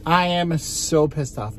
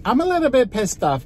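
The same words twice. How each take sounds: First: Said in the usual way. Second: High-pitched, fast pissed-off blurt; exasperated squeal of annoyance. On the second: Real, not acted. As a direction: shoot the pitch up in irritation.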